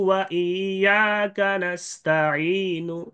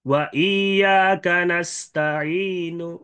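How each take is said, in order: No difference in how they are said.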